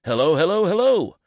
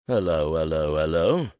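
First: High and louder, announcing yourself to the room; cheery hello. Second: "Hello, hello" low and flat, the last "hello" rising ominously; suspicious policeman. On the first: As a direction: sing out "hello" three times, each one higher. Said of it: "greets everyone with a cheery". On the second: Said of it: "The opening hellos are low and flat, and the final one rises, ominously". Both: Acted.

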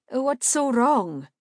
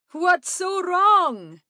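First: High, slow, loud question; perplexed, insistent questioning; puzzled appeal. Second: High, loud, slow drawn-out call; loud hail, stretching the last word. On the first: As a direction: ask in baffled concern, stretching it out. Asks the screaming man what's wrong. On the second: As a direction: shout the question across to the group. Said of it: "Salamander called out". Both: A narrator's reading.

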